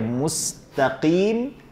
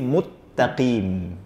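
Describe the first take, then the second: First: The s sound is kept before the t. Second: The s is merged into a doubled t. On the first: The speaker calls it right. "orang yang harusnya membaca mustaqim" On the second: The speaker calls it wrong. "dia baca jadi muttaqim. Sin itu nggak boleh dimasukkan ke ta"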